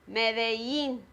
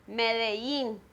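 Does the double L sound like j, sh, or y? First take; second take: y; y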